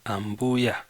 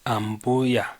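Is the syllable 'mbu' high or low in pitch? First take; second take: high; high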